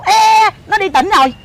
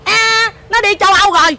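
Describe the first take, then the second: First: Mimicking a stuck-up mother, higher; drawn-out, dismissive mock brush-off; snooty mother. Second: Mimicking an extra stuck-up mother; higher, airy mock brush-off; even snootier mother. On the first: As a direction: imitate a mother too important to bother. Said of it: "má nó chảnh lắm". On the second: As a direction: imitate a grander, snootier mother. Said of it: "Má nó còn chảnh hơn nữa".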